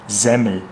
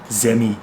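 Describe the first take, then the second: First: The word ends with a clear L sound. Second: The word ends with a vowel, no L.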